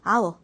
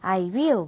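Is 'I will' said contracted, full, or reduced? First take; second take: contracted; full. First: The two words merge into one contracted syllable. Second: Both words are said fully and separately. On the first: "I'll, will 이러면서 읽을 거고" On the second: "I will, we will 하면서 착각에 읽을 건 아니고요"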